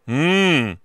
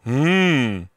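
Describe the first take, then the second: First: The hum sits back in the throat. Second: The hum sits back in the throat.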